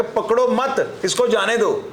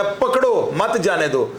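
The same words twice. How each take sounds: First: पकड़ो मत joined, then a break before इसको जाने दो; group पकड़ो with मत, pause, then इसको जाने दो separately; पकड़ो मत as one raised phrase, falling before इसको जाने दो; pause after मत. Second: पकड़ो set apart, then मत जाने दो joined as one order; a command पकड़ो, a beat, then मत जाने दो together; pause after पकड़ो. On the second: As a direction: slowly, break after पकड़ो and run मत into जाने दो. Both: Shown as a demonstration. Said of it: "एक ही बात के दो मतलब है".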